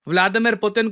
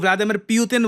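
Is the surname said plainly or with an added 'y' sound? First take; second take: plainly; added 'y'. First: The surname starts with a plain 'poo' sound. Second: The surname starts with a 'pyoo' sound. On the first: The speaker calls it right. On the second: The speaker calls it wrong.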